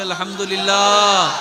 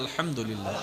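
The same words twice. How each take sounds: First: It is said louder, with more force. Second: It is said at normal loudness.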